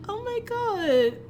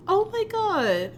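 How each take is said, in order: Both takes have the same delivery.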